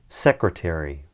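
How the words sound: It is said in an American accent. "the first time I say them, I'm going to say them in an American accent"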